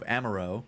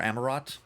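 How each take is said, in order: First: The final t is silent, ending in 'oh'. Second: The ending is sounded like the word 'rot'. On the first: The speaker calls it wrong. "I don't actually know if it's Aro or Rot" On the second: The speaker calls it right. "I don't actually know if it's Aro or Rot"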